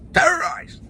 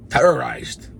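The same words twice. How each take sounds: First: "Terrorized." squeaked very high and loud; mock terrified squeal. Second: Said in the usual way. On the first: Shown as a demonstration. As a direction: jump way up in pitch on "Terrorized.". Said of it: "repeated, mock terror". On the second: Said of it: "repeating the word".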